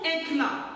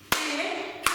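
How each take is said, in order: First: Said in the usual way. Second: "Éclat" broken into two beats, é - clat; split into syllables. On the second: Shown as a demonstration. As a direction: clap out "Éclat" syllable by syllable with a gap. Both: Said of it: "on va frapper ensemble le mot éclat".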